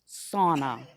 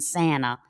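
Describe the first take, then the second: First: The first vowel sounds like the vowel in spa. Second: The first vowel has a Southern US accent. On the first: The speaker calls it right. "as in spa" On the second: The speaker calls it wrong. "Not the southern pronunciation"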